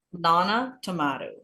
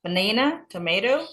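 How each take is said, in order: First: Banana and tomato with AH middles; British banana, tomato, falling to a close; British pronunciation. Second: Banana and tomato with AY middles, rising; American banana, tomato, each lifted at the end; American pronunciation. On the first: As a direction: list banana, tomato as buh-NAH-nuh, tuh-MAH-toh. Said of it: "kalau British tomato". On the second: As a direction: list banana, tomato as buh-NAY-nuh, tuh-MAY-doh. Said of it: "Tomat itu American tomato". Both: Shown as a demonstration.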